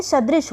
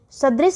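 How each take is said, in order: First: सदृश ending in 'sh'; correct sibilant. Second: सदृश ending in plain 's'; wrong sibilant. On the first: Teacher giving correct form, 'sh' ending सदृश. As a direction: end सदृश on a clear 'sh'. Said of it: "ये सदृश होता है". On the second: Teacher rejecting a mistake, 's' ending सदृश. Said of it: "सदृश से नहीं होता". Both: Shown as a demonstration.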